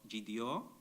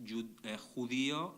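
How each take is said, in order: First: It is said with the traditional Ladino pronunciation. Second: It is said with the modern Mexican Spanish pronunciation. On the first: "a form uh, of traditional Ladino" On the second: "borrowed from modern Mexican Spanish"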